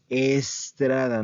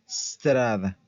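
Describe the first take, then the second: First: An extra e vowel comes before the s. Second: The word starts directly with the s sound. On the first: The speaker calls it wrong. "No se dice estrada" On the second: The speaker calls it right. "Se dice strada"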